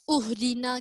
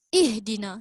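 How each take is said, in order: First: The word begins with a u vowel. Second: The word begins with an i vowel. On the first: The speaker calls it wrong. "ke uhdina" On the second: The speaker calls it right. "Kita baca ihdina"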